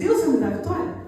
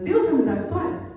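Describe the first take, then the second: First: It is said as a doubtful question. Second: The same.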